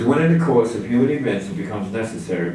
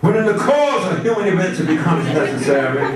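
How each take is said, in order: First: It is read in a flat, boring way. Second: It is read in a put-on preacher-like orator's voice. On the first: "it sounds boring that way" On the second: "Or Doctor Martin Luther King would say"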